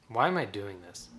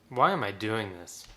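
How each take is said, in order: No difference in how they are said.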